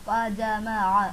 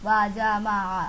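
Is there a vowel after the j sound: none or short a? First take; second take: short a; short a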